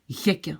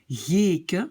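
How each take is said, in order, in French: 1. La première voyelle est courte. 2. La première voyelle est longue. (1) "pour éviter ça, je dois mettre deux K" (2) "je prononce le E long"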